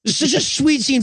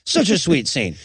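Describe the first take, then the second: First: Gushing, sugary sweet; mock-sentimental gush. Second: Lower, deadpan repeat; sarcastic deadpan; flat sarcastic. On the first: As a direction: coo it like a sappy movie fan. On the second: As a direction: say it dry and mocking. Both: Shown as a demonstration. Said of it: "making me do the same".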